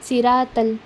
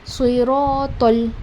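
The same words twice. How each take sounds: First: The t sound is light, like a plain ta. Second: The t sound is heavy, with an o-like color. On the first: The speaker calls it wrong. "हम इसे कैसे पढ़ते हैं जब मिस्टेक के साथ पढ़नी हो" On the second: The speaker calls it right. "तल ओ वाली साउंड"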